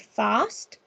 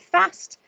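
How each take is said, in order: First: The vowel is a long open 'ah' sound. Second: The vowel is a short flat A sound. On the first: "a long A that sounds like the phoneme R" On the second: "I just read them with using a short A"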